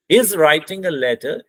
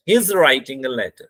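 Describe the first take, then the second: First: Slow, voice falls by letter; falling tone statement. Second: Slow, voice falls on letter; falling tone statement. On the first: Teacher repeating the example statement, slow with a falling tone. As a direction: say it slowly and drop at letter. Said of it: "complete and definite statement". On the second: Teacher showing a definite statement, slow with a falling tone. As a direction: let the voice drop down on letter. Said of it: "letter में हमारी आवाज down आ रही है". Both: Shown as a demonstration.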